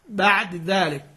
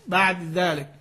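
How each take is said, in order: First: The final consonant keeps a brief, partial vowel trace. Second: The same.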